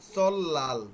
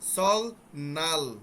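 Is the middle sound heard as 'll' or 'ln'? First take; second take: ll; ln. First: The middle is said as a double l. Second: The middle is said as an l then an n. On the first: The speaker calls it right. "সল নালের জায়গা হবে কি সল্লাল" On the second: The speaker calls it wrong. "এটা কিন্তু হবে না"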